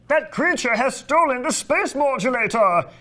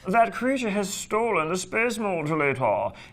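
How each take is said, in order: First: It is said in an exuberant, excited way. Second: It is said in a dry, droll way.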